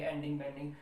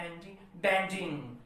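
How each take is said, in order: First: Said in the usual way. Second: Weak ending then strong, emphatic bending; stress on second word. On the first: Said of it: "अपन इसे normal नहीं पढ़ेंगे". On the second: Shown as a demonstration. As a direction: hold back on ending, hit bending hard. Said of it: "first को आप unstressed कीजिएगा".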